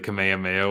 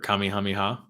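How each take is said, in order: First: The name is said the familiar anglicized way. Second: The name is said the native Hawaiian way. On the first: The speaker calls it wrong. "you've been saying it wrong your whole life" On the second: The speaker calls it right. "I say Kamehameha now"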